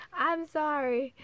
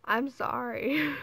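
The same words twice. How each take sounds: First: Sorry said through a laugh, higher; giggly, sheepish sorry; laughing apology. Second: Slow, earnest sorry, louder; a heartfelt, drawn-out apology; mean it, slowly; sincere slow apology. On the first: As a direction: apologize while still laughing. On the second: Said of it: "if this made you cry, I'm sorry". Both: Real, not acted.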